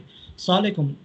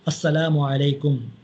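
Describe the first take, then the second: First: The words are clipped and slurred together. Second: Every syllable is pronounced fully and clearly. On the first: The listener cannot tell what words were said. The speaker calls it wrong. "यानी समझ में नहीं आता क्या बोला" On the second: The greeting is given completely and properly. The speaker calls it right. "इस अंदाज़ से जो है सलाम कहना चाहिए"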